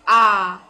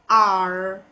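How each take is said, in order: First: The final R sound is dropped. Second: The final R sound is clearly pronounced. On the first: "British accent is only pronounced A" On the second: "The correct one is R. I pronounce the R, not only A. R is in case of American accent"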